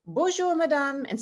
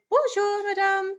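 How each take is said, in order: First: Said in the usual way. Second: Bonjour, madame sung much higher in a lilting tune; singsong French greeting, bonjour madame way up high; sing-songy. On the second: Shown as a demonstration. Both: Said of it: "say it sing-songy".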